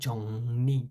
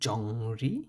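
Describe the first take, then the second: First: The middle consonant is an 'n' sound. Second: The middle consonant is an 'r' sound. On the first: The speaker calls it right. "এটা হবে" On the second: The speaker calls it wrong. "এটা হওয়ার কথা ছিল"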